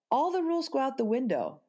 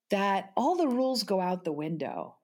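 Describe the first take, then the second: First: Higher, faster, insistent repeat; emphatic repeat. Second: Said in the usual way. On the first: Shown as a demonstration. Mother to podcast host, repeating it higher and faster for emphasis. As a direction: drive the point home, pitched up. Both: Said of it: "repeated for emphasis".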